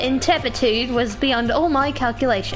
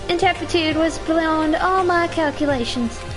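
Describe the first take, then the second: First: It is said in the speaker's plain accent. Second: It is said in a put-on character accent. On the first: The speaker calls it wrong. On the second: The speaker calls it right.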